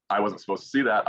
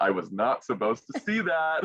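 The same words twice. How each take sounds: First: Said in the usual way. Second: "not" punched and higher, breaking into a laugh; stress on NOT. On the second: Retold or imitated. Finalist who glimpsed the result early, stressing "not" with amusement. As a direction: hit "not" hard, as if caught out, laughing.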